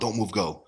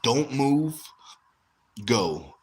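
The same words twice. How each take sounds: First: The words run together without a pause. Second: There is a short pause before 'go'. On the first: The speaker calls it wrong. "I don't want" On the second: The speaker calls it right. "there's going to be a slight pause after don't move"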